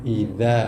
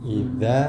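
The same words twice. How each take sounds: The two takes are said the same way.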